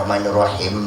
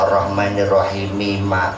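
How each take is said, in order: First: The final m is merged into the next word. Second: The final m is clearly pronounced with a vowel. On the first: The speaker calls it wrong. "jangan ar-rahmanir-rahim" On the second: The speaker calls it right. "dikeluarkan huruf terakhirnya"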